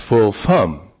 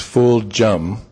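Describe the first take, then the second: First: The middle consonant is an F sound. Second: The middle consonant is a J sound. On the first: "though it could be pronounced Full Fum" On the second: "It's Full Jum"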